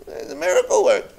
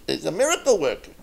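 First: Much higher, fast excited cry of awe; excited praise. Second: Said in the usual way. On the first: Retold or imitated. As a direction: gush it out in amazement. Crowd praising the Rebbe.

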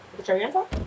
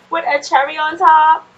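First: Said in the usual way. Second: Higher, louder demand; With a cherry on top said higher and louder, falling on top; firm playful insistence; insistent. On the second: Real, not acted.

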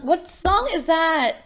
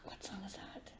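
First: High, slow, drawn-out question; lifted voice, searching memory for a tune; puzzled question. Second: Barely audible whisper to oneself; very quiet, voiceless musing; whispered question. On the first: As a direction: wonder aloud, stretched and high. Puzzling over a half-remembered tune. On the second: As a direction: whisper it while searching your memory. Puzzling to self over tune. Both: Real, not acted.

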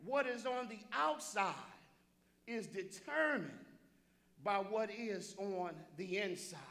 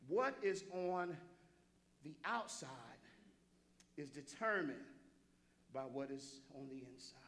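First: Spaced-out phrases in a full preaching voice; deliberate repeat. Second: Measured emphatic delivery. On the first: Preacher repeating his key point for the congregation, deliberate and firm. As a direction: hold the pauses and keep the voice up. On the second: Preacher landing his key point for the congregation, measured and hushed. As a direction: space it out, sinking quieter on the last phrase. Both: Real, not acted. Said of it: "let me say it again".

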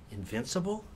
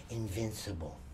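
First: "Invincible?" asked with a rising tune; questioning rise. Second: "Invincible." settled low, soft and falling; confident fall. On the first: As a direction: try out "Invincible?" as a doubtful question. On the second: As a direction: state "Invincible." with quiet certainty. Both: Shown as a demonstration.

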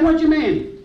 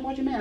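First: Higher, full-voiced challenge back; indignant retort. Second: Soft, higher-pitched question; muted puzzled retort. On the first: Man answers a pastor he finds cheeky, indignant retort. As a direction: throw the question back, affronted. Retold retort, repeated more strongly. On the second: Retold or imitated. Man thinks the pastor is getting cheeky, muted retort. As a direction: ask it under your breath, taken aback.

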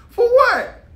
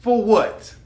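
First: Very high, loud squeal of disbelief; incredulous outburst. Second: Said in the usual way. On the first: Real, not acted. Asking men why they risk brotherhood, high-pitched disbelief. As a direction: shoot it way up in exasperation. Repeats question with rising intensity.

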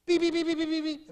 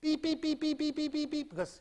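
First: Fast, high, loud tight beeping; quick close beeps. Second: High, steady beeps spread out; spaced-out beeps. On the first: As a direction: beep rapidly across short lines. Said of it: "if it goes this way, it goes". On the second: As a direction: beep as the scan takes longer to cross. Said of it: "If it goes this way, it goes". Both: Shown as a demonstration.

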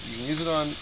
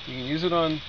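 No difference in how they are said.

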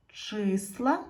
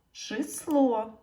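First: "Числа" with a long stressed и; "Числа" with the weight on the first syllable. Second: "число" higher, stressed on the final о; "число" with the weight on the last syllable; stress on second syllable. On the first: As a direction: put the beat on чис in "Числа". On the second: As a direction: put the beat on ло in "число". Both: Shown as a demonstration. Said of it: "постав наголос".

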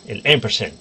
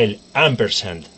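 First: Ampersand said as 'EM-per-sen'; English-style ampersand, opening on 'em'; ampersand a la inglesa. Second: Ampersand read as spelt, with open 'am'; ampersand a la española. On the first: La repite con pronunciación inglesa. (ampersand pronunciado 'émpersen', en inglés) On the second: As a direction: say ampersand with Spanish vowels, full 'sand'. Dice la palabra de dos maneras. (ampersand pronunciado como se escribe) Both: Shown as a demonstration.

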